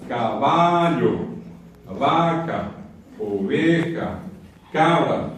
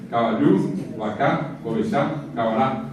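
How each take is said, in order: First: "caballo, vaca, oveja, cabra" each slowly stretched on the middle-to-front stressed syllable, ca-BA-llo, VA-ca; stress on penultimate syllable. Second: "caballo, vaca, oveja, cabra" each punched on the last syllable, rising, Guaraní style; stress on final syllable. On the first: Teacher showing Spanish llanas words, stressed slowly on the penultimate syllable of "caballo, vaca, oveja, cabra". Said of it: "palabras llanas. Acento medio".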